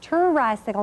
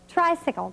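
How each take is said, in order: First: An extra vowel sounds between the t and r. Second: The t and r blend with no vowel between. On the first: The speaker calls it wrong. "not tricycle" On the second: The speaker calls it right.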